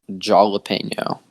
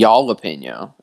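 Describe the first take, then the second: First: It starts with a hard English J sound. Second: It is said with a Dutch or German J. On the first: "Just with the J. No H, just J" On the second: "if you're like Dutch or German or something"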